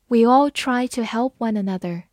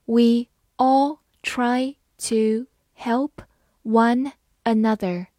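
First: Said in the usual way. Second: Slow, clear word by word reading. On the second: Shown as a demonstration. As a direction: read it slowly for learners. (慢速朗读) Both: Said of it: "好，慢慢来读。".

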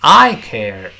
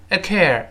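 First: "I" full, clear and loud before "care"; stress on I. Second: "I" reduced to a quick weak uh before "care"; unstressed I. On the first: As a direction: hit "I" hard, never weaken it. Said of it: "清晰响亮的". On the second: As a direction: swallow "I", land only on "care". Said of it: "这个I就不能轻读". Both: Shown as a demonstration.

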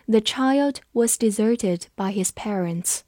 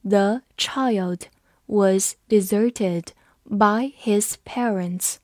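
First: Said in the usual way. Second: Very slow, word-by-word model reading; slow read-along. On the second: Shown as a demonstration. Teacher leads students through the sentence, slow and separated. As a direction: space out every word for learners to follow. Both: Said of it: "跟着我慢读一遍".

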